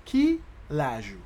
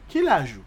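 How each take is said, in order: First: "Quel âge" pulled apart into two beats; separated, stretched syllables; slow demonstration. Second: Said in the usual way. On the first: Shown as a demonstration. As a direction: say it slowly for a learner. Teacher slows Creole phrase.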